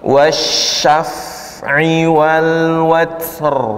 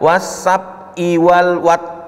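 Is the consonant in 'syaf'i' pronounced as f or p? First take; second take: f; p. First: The f sound is said as f, with sh. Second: The f sound is said as p, sh as s. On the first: The speaker calls it right. "Jadi yang benar" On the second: The speaker calls it wrong. "pertama baca fa-nya jadi P, shin-nya jadi sin"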